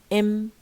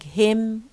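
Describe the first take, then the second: First: The word starts with no h sound. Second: The word starts with a clear h sound. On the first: "we have im" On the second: "instead of saying"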